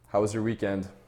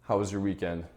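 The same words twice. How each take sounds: First: The pitch stays level toward the end. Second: The pitch falls toward the end. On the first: The speaker addresses an equal. "Now I'll show you even tonality" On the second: The speaker addresses someone treated as inferior. "Now I'll show you declining tonality"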